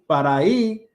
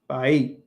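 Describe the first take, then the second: First: Every syllable of both words is fully pronounced. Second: The words are shortened and run together. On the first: This is the standard form the speaker learned first. "instead of saying para ahí" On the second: This is how Puerto Rican speakers say it. "It's just para ahí"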